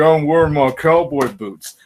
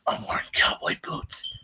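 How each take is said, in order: First: It is said in a put-on western voice. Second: It is said in a put-on Batman voice. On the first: The speaker calls it wrong. "in a western voice" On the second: The speaker calls it right. "like Batman going"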